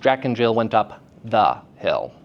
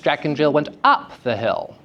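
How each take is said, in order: First: Short breaks set apart the stressed syllable. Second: A pitch change marks the stressed syllable. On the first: "separating the stressed syllable from its surrounding syllables" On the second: "change in pitch"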